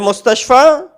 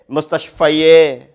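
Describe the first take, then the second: First: The word ends on a plain long 'a'. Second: The word ends with an extra 'e' vowel. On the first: The speaker calls it right. "It says al mustashfa when there's nothing upon it" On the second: The speaker calls it wrong. "You don't say mustashfaye. It doesn't sound right"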